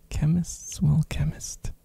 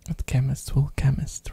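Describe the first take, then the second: First: Laughing whisper. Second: Said in the usual way. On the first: Real, not acted. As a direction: whisper through a chuckle. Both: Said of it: "repeated with laugh".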